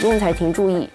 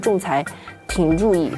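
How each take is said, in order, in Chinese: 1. 这个短语是连在一起说的，一气呵成。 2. 这个短语中间会停一下，断开来说。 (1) "这就是一个连续的" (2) "你不能说仲裁庭注意，这样就很奇怪"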